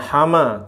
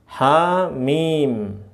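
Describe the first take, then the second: First: It is read quickly as one short word. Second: It is read as two letter names, lengthened. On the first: The speaker calls it wrong. "bukan hama" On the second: The speaker calls it right. "tapi ha-mi, mim"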